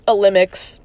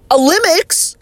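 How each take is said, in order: First: Said in the usual way. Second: "Olympics?" high, odd vowel, rising; questioning pronunciation. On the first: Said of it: "That's what it's called now". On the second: Shown as a demonstration. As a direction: try out "Olympics?" in a strange voice. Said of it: "uh, Olympics?".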